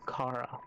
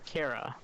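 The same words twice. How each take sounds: First: The first syllable sounds like the word car. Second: The first syllable sounds like the start of character. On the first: "I always say Kara. Like, car, vroom, vroom" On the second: "those who pronounce it Kara, like character"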